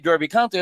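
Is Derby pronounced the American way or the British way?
American. Derby is pronounced the American way. The speaker calls it wrong. "I would never say"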